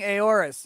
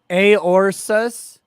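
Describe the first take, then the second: First: No S sound comes before the ending. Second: An extra S sound comes before the ending. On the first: The speaker calls it right. "It's A O R U S. I'm saying Aorus" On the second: The speaker calls it wrong. "No, there's no S"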